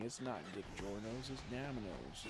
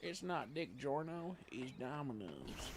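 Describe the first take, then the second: First: Mock Southern accent slogan, softer; lightly put-on Southern accent tagline. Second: Slow, drawn-out slogan, raised then softer; hammed-up slow commercial tag; mock ad slogan. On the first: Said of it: "They have, like, a southern accent". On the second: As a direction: stretch it out like a jokey tagline. First take of joke slogan.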